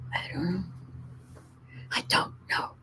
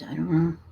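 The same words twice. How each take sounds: First: Breathy unvoiced whisper, trailing off. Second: Said in the usual way. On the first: Real, not acted. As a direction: whisper the doubt to yourself. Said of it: "repeated, whispered". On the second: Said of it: "repeated with changing delivery".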